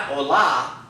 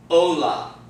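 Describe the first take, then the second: First: Hola with LA stressed; stress on wrong syllable. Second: Hola with O stressed and long; stress on second-to-last. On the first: Teacher shows what not to say, hola stressed on LA. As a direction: shift the accent to la in hola. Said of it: "Not hola". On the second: Teacher models the new word, hola stressed on O. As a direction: hit O in hola, falling on la. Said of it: "accent is gonna fall on the second to last syllable". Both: Shown as a demonstration.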